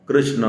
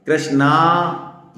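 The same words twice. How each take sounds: First: कृष्ण ending on a short, light a; brief कृष्ण, no आ at the end; short final vowel. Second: कृष्णा with the final आ held long; slow कृष्णा, stretching the last vowel to a full aa. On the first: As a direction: let the ण of कृष्ण fall away without a long aa. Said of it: "ना पूरा बोलना है". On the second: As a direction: draw out the ना in कृष्णा. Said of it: "ये द्रौपदी का नाम है". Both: Shown as a demonstration.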